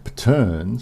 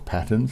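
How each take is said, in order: First: The word is pronounced in an odd, joking way. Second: The word is pronounced in the normal way. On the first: The speaker calls it wrong. "mispronounce things on purpose" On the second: The speaker calls it right. "as it's really pronounced"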